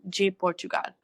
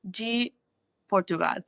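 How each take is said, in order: First: The word 'de' starts with a J-like sound. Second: The word 'de' starts with a plain D sound. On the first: The speaker calls it right. "that D at the start of a word is G. Almost like a G" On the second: The speaker calls it wrong. "I got the pronunciation a little funky wonky"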